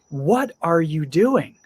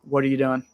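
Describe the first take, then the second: First: It sounds surprised, with marked emphasis. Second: It sounds neutral, with ordinary emphasis. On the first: The speaker is shocked or confused by the action. "If I'm really surprised or shocked or confused" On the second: The speaker is simply asking about the action. "in a normal situation"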